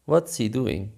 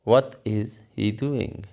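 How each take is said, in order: First: 'What' and 'is' are joined into one quick syllable. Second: 'What' and 'is' are said as separate words.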